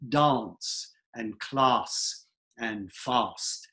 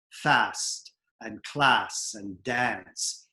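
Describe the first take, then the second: First: DANCE, CLASS, FAST with a long "ah" as in "father"; British broad AH. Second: FAST, CLASS, DANCE slow, with the flat "a" of "cat"; American short A. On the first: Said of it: "said with an ah sound". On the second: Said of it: "American dialects we say". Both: Shown as a demonstration.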